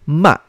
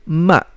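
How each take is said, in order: The two takes are said the same way.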